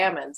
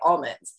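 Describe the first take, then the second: First: It is said without the L sound. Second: It is said with the L sound.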